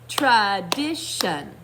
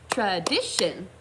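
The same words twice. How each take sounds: First: It is said slowly, syllable by syllable. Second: It is said a little faster.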